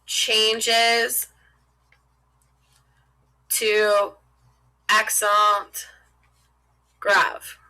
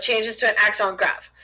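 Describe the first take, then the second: First: Word by word with long pauses; spaced out as if writing each word; slow dictation. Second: Said in the usual way. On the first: Real, not acted. Teacher writing the rule out for students, slow dictation.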